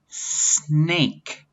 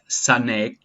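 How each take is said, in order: First: The s runs straight into the n sound. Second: A vowel is inserted after the s sound. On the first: The speaker calls it right. "It sounds like this" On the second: The speaker calls it wrong. "S is not sa like sanek"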